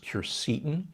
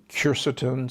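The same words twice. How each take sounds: First: Quercetin stressed on the middle syllable; alternative pronunciation. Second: Quercetin stressed on the first syllable; first pronunciation. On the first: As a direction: say quercetin as kwer-SEE-tin. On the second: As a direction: say quercetin as KWER-suh-tin. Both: Shown as a demonstration. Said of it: "sometimes pronounced quercetin".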